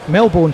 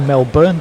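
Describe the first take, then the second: First: The second syllable keeps its full vowel. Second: The second syllable has a reduced, weak vowel. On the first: The speaker calls it wrong. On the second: The speaker calls it right.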